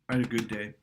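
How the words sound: It sounds flat and down, with little push.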